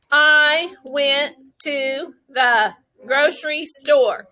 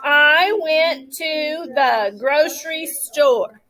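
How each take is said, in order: First: Each word said slowly and separately. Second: Slow word-by-word I went to the grocery store; pointer power. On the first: Teacher to class, slow word-by-word demo. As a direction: tap out I went to the grocery store one word at a time. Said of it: "let's do it like we did yesterday and say". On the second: Teacher leading class with pointer power, slow and separate. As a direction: say each word apart, slowly. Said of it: "use your pointer power with me today". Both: Shown as a demonstration.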